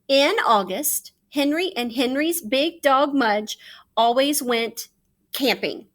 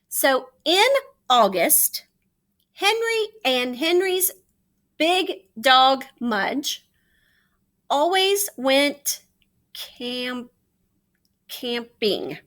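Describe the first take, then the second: First: It is read smoothly without breaks. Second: It is read slowly with choppy breaks.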